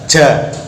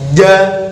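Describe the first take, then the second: First: It is said with breath audibly escaping. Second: It is pressed hard with no breath escaping. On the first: The speaker calls it wrong. "Contoh yang nafasnya masih keluar" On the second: The speaker calls it right. "lidah kita tekan ke depan dengan kuat"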